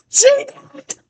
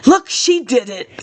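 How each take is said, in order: First: Much higher, squeaky echo of the line. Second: Said in the usual way. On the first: Acted. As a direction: say "She did it" again up high, mocking.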